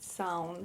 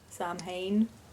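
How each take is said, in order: First: It is pronounced the Irish way. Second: It is pronounced as an English word. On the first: The speaker calls it right. "that's how you pronounce it. You pronounce it Samhain" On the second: The speaker calls it wrong. "not Samhain"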